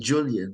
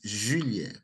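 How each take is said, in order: First: The name is said with an English pronunciation. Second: The name is said with a French pronunciation. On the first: This is how English speakers say it. The speaker calls it wrong. "English speaking people say Julian" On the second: This is the proper form of the name. The speaker calls it right. "the proper pronunciation is Julien"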